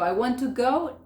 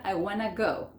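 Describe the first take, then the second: First: WANT TO GO with each word separate; "want to" fully pronounced, higher; full form. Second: WANT TO merged into WANNA before go; "wanna" as one word, no separate to; TO dropped. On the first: Teacher citing the long form for learners, WANT TO distinct. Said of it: "va a ser". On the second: Teacher showing natives drop the to, WANNA run together. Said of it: "Hasta el to sacan". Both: Shown as a demonstration.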